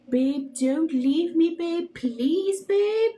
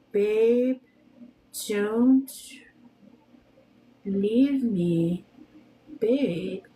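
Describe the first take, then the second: First: Mock pleading, rising higher toward the end; slow pretend plea climbing in pitch; imitated tearful plea. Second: Long pauses between the words; deliberate, evenly spaced dictation. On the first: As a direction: beg like the crying boy, half-hearted. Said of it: "The boy crying video that went viral". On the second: Shown as a demonstration. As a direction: say it slowly, one word at a time. Spells out the clip for searching.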